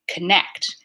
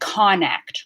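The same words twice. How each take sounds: First: The first vowel is reduced to a schwa. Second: The first vowel is a full 'on' sound. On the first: The speaker calls it right. "there's no on sound there" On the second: The speaker calls it wrong. "I'm not saying connect"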